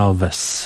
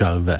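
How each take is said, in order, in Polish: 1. Końcowa głoska to zwykłe s. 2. Końcowa głoska to dźwięk sh.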